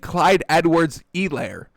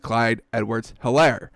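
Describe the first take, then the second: First: The H at the start of Helaire is silent. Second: The H at the start of Helaire is pronounced. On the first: This is how the broadcast said it. "the guy kept saying" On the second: This follows the spelling. "there's an H, so I will pronounce it as"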